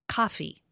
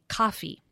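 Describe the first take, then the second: Both takes have the same delivery.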